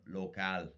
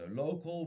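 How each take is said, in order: First: It is said with Spanish sounds, each syllable clear. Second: It is said with English sounds, syllables blurred.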